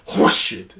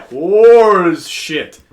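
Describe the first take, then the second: First: "horseshit" with phlegm building on the first sound; aggressive, throaty start on "horseshit"; phlegmy build-up. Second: "horse" loud and very drawn out, like "whores"; stress on HORSE. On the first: Friend demonstrating the aggressive swear, phlegmy "horseshit". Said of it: "the building of phlegm". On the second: Friend showing it contains whore, long stressed "horse". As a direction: stretch "horse" right out, then drop "shit". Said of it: "you're already saying whore". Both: Shown as a demonstration.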